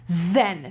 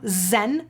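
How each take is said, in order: First: The word begins with a th sound. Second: The word begins with a buzzing z sound. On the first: The speaker calls it right. "you'll do then. So your tongue has to come between your teeth" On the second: The speaker calls it wrong. "instead of z, that's what you're doing right now"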